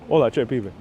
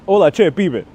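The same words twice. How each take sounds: First: Lower, softer Puerto Rican Spanish; Puerto Rican accent. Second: Argentinian greeting, called out brightly; Argentinian accent. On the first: Streamer redoing the greeting, Puerto Rican accent. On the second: Streamer trying an Argentinian greeting, Argentinian accent. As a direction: greet them in Argentinian Spanish. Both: Acted. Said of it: "I'm not saying that very Puerto Rican".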